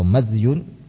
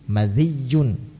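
First: The dh sound has no vowel after it. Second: The dh sound is followed by i and a doubled y. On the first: "dengan mensukun huruf dalnya" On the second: "dengan mengkasrah huruf zalnya dan mentasydid ya-nya"

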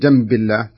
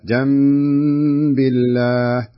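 First: The nasal sound is short and not held. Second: The nasal sound is held for two counts. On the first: The speaker calls it wrong. "ما أقول جنب الله" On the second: The speaker calls it right. "نفس الشيء"

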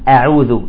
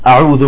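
First: The initial glottal stop sounds light and thin. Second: The initial glottal stop sounds heavy and emphatic. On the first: The speaker calls it right. "لا، تقول أعوذ" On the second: The speaker calls it wrong. "بيقول لك"

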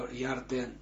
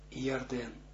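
Both takes have the same delivery.

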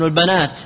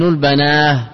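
First: The word ends with a t sound. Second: The word ends with an h sound. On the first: "والأرجح الوقف بالتاء" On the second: "قلبت تاء هاء"

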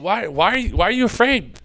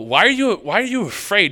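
First: It sounds gentle and encouraging. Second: It sounds impatient and scornful.

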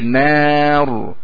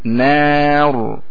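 The two takes are said the same way.

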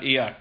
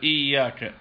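First: The 'y' sound is short and single. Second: The 'y' sound is doubled and held longer. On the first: A letter is dropped and the prayer is invalid. The speaker calls it wrong. "يعني إذا لم يشدد الياء يكون قد أسقط حرف" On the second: The word is recited in full. The speaker calls it right. "ما قال إياك"

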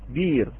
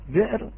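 First: A long vowel replaces the glottal stop. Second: A glottal stop closes the first syllable. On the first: This is the reading of Warsh. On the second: This is the word with its hamza kept.

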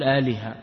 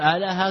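First: The middle consonant carries an i vowel. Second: The middle consonant carries an a vowel. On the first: The speaker calls it right. "فتقول آلهة" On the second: The speaker calls it wrong. "ولا تقول آلهة كفرح، هذا تناقض"

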